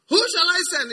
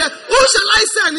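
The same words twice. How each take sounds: First: Voice of God. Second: Loud, high, slow shouted call; calling out the line to be echoed back; congregation call. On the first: Acted. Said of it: "some type of things God says". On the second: Shown as a demonstration. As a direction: shout it for them to repeat.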